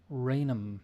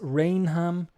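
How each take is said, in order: First: The h sound in the middle is silent. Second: The h sound in the middle is heard.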